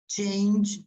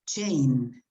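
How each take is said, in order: First: The final sound of the word is clearly pronounced. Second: The final sound of the word is dropped. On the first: The speaker calls it right. "You have to pronounce it. It's not an N, it's change" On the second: The speaker calls it wrong. "You don't pronounce yes. the ending"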